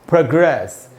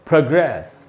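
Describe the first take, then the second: Both takes have the same delivery.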